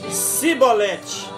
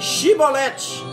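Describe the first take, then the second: First: The word begins with a plain s sound. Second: The word begins with an sh sound. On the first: This form gave the speaker away as an outsider. The speaker calls it wrong. "mas eles pronunciavam Sibolete. E por eles pronunciarem errado" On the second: This is the form that got people through. The speaker calls it right. "os gileaditas lhes diziam que pronunciassem Shibolete"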